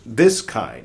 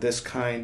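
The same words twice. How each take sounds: First: The word 'this' is given extra stress. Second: The word 'this' is not given extra stress. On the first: The speaker calls it right. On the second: The speaker calls it wrong.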